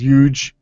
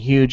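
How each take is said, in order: First: It is said in a northern New Jersey accent. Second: It is said in a standard accent. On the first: This is how someone else says it. "he says huge" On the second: This is the usual way to say it. "instead of saying huge"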